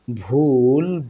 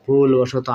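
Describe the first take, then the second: First: ভুলবশত stretched slowly, ending in "to"; teacher slowly models ভুলবশত; ভুলবশত drawn out for learners; slow pronunciation demo. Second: ভুলবশত said at normal speed as bhulboshoto; ভুলবশত quickly after the slow take; ভুলবশত at natural pace; normal-speed demo. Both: Shown as a demonstration. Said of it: "শেষের তটা কি হবে".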